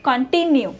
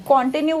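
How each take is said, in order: First: "continue" as kun-TIN-yu, weak first vowel; correct pronunciation. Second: "continue" as KON-tinue, full O up front; wrong pronunciation. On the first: Teacher corrects students with it's continue, correct pronunciation. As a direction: stress the middle syllable of "continue". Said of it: "it's continue". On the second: Teacher says this form कुछ नहीं होता, wrong pronunciation. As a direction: stress the first syllable of "continue". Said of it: "continue कुछ नहीं होता". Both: Shown as a demonstration.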